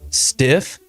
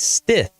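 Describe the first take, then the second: First: The name ends with an f sound. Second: The name ends with a th sound. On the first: The speaker calls it wrong. "I've heard ... Stiff" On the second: The speaker calls it right. "but it's Stith, just like it's spelled"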